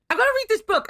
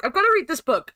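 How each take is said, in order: First: Pitched up, eager about the book; eager exclamation. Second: Said in the usual way. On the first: Real, not acted. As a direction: announce it with excitement. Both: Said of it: "pages and pages of lore".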